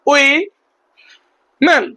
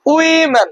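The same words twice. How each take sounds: First: women as two slow separate beats, wi and men; women very slowly, syllable by syllable; split in two. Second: Said in the usual way. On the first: Shown as a demonstration. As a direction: break women with a long pause before men. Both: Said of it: "দুটো খণ্ডে ভাগ করতে পারি".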